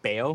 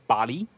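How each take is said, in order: First: The name is said with one syllable. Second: The name is said with two syllables. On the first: The speaker calls it wrong. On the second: The speaker calls it right. "that's the official Cedic language pronunciation"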